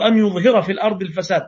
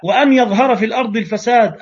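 First: أن said plainly as "an" with no wa before it; reading without waw. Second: وأن said "wa-an" with the wa stressed; reading with waw. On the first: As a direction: open straight on أن يظهر without the wa. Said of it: "أو". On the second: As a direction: stress the opening wa in وأن يظهر. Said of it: "لا". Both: Shown as a demonstration.

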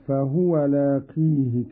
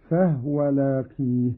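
First: Said in the usual way. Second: فهو said fahwa, no vowel on the ha; vowelless ha. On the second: Shown as a demonstration. Teacher demonstrates Qalun's reading, فهو as fahwa. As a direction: close فهو on the h: "fah-wa". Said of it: "بإسكان الهاء".

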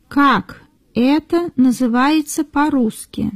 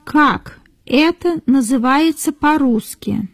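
The two takes are said the same way.

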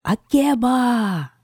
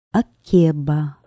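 First: Long high shout up into the tree; calling out. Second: Drawn-out name. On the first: Queen calling the witch from under the pear tree, long high shout. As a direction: call her name up into the branches. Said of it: "крикнула". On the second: Queen prompting the king with the witch's name, slow and drawn out. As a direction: stretch the name out slowly and loudly. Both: Acted.

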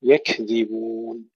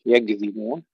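First: يكذبون slowly, with a clean k; correct kaf. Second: يكذبون with the kaf said like English g; g sound mistake. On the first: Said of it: "وهذا أيضًا خطأ". (يكذبون بكاف صحيحة) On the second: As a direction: say يكذبون as يگذبون. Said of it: "مثل حرف الجي الإنجليزي". (يكذبون بكاف كالجيم الإنجليزية) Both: Shown as a demonstration.

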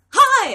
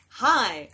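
First: Very loud, high-pitched imitated greeting; excited fan greeting. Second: Usual pitch, held-back imitated greeting; retold puzzled reply. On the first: Fan approaching her in a New York bar, excited shout. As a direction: burst out like an overjoyed fan. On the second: Drunk woman answering an unknown fan in a bar, puzzled. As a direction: answer a stranger without sharing the excitement.

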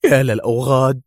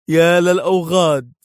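First: Louder pained cry on يا; pained exclamation. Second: Higher, louder cry of pain, stress on يا; anguished outcry; pained shout. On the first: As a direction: cry out as the wound burns. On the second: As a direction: shout through the pain of the bullet. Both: A narrator's reading. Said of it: "ويهتف في ألم".

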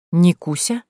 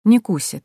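First: Astonished question with rising end; a puzzled, lifted query on the name; amazed. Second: Said in the usual way. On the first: A narrator's reading. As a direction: echo the name in disbelief. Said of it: "Изумление в голосе Дмитрия Васильевича было столь сильным".

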